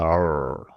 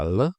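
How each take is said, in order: First: R as a dark L, tongue curled back; dark final L. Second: L with the tongue tip touching up at the lip; touch the tongue tip up for a clear L; clear initial L. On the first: Teacher showing how a syllable ends, dark curled-tongue L. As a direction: curl the tongue inward and hold a dark R-like L. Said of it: "donc on le tourne pour faire". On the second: Teacher showing how a syllable begins, clear tongue-tip L. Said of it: "on touche le bout de la langue". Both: Shown as a demonstration.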